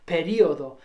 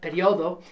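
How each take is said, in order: First: The stress falls on the i sound. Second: The stress falls on the o sound. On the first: "with an accented I, in which you'd say periodo" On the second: "but periodo is um, equally acceptable"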